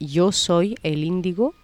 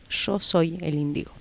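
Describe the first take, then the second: First: It is said with a Spanish (Spain) accent. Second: It is said with an Argentine accent.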